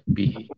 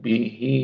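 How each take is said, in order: First: The final vowel is held short. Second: The final vowel is drawn out long. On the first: The reading stops at this word. "Pendek aja" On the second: The word is joined to the next word. "Bihi kalau disambung jadi dia akan menjadi bendera"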